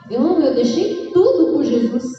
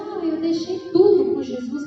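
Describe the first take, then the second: First: It is said in a joyful tone. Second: It is said in a sad tone.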